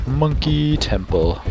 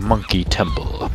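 First: Slow, high, drawn-out name; theatrical announcement. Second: Said in the usual way. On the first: Pretend. Gamer grandly naming the temple he found, theatrical drawl. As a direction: stretch it out like a grand title.

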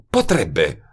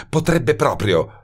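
First: Said in the usual way. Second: Potrebbe drawn out slow and higher, falling; stress on potrebbe. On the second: A narrator's reading. Woman insists to detective, weight on potrebbe. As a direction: lean hard on potrebbe, slowly.

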